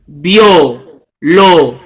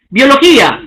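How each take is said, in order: First: Biología spoken slowly, syllable by syllable, lower; slow lower split of biología into syllables; syllabified. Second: Said in the usual way. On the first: Shown as a demonstration. Teacher showing students the syllables, slow and low. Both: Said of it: "el silabeo".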